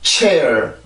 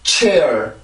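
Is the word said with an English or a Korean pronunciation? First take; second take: English; English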